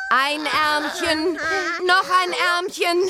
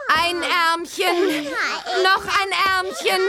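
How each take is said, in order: First: Coaxing singsong. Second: Slow singsong "ein Ärmchen, noch ein Ärmchen" drawn out; coaxing singsong. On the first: [name] dressing the other twin, slow coaxing singsong. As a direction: coax the second baby into the jacket. Second baby, same coaxing. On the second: [name] dressing a twin, slow coaxing singsong. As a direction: sing the words while sliding each arm in. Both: Acted.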